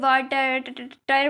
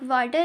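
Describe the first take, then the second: First: An extra syllable is added at the end. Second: The word ends normally after two syllables. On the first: A child adds sounds that do not belong. "उसको लंबा करके वाटर टर बोल देंगे" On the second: This is the intended word. "वाटर है"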